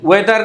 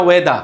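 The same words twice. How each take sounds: First: ওয়েদার ending in a sounded R; Bengali-style ওয়েদার with final R; R pronounced. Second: ওয়েদা ending on an open "da"; British-style ওয়েদা, no R; silent final R. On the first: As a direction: close ওয়েদার on an audible R. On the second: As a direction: drop the R from ওয়েদা. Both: Shown as a demonstration. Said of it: "ওয়েদার না ওয়েদা".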